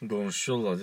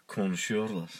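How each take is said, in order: First: "Konuşuyorlar" slurred to gonuşyola; colloquial pronunciation. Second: "konuşuyorlar" in full, with k and both r's; corrected pronunciation. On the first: Co-host echoing the wrong "Konuşuyorlar", slurred as gonuşyola. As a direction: say "Konuşuyorlar" with soft g start and dropped r's. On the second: Co-host correcting his partner, full standard "konuşuyorlar" with clear r's. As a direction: sound out every syllable of "konuşuyorlar". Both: Shown as a demonstration. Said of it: "Konuşuyorlar değil, konuşuyorlar".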